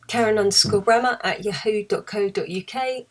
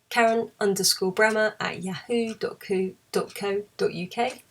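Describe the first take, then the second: First: It is said fast. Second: It is said slowly.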